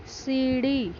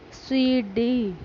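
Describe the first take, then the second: First: Said in the usual way. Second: सीढ़ी with the ee held long and slow; teacher modelling सीढ़ी, ee drawn out. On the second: Shown as a demonstration. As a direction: stretch the ee in सीढ़ी. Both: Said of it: "थोड़ा तेज खींचकर बोलते हैं".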